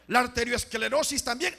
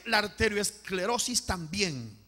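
First: Higher first statement, rising; emphatic preacher's call; raised call. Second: Slow, falling repeat; measured, stretched echo; slow solemn repeat. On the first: Each illness called, then repeated slowly. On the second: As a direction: repeat it slowly, letting the tune settle. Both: Real, not acted.

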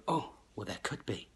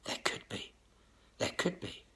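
First: Musing voice. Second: Breathy whisper, fading doubt; mimicking gullible people whispering "there could be"; whispered musing. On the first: Retold or imitated. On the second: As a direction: whisper it to yourself as if half-convinced. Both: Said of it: "Most people were sitting there thinking".

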